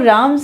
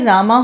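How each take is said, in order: First: The name ends on the consonant m. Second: The name ends with an added final a vowel. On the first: The original pronunciation of the name. "राम से रामा हो गया" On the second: The pronunciation that later became fashionable. "राम से रामा हो गया"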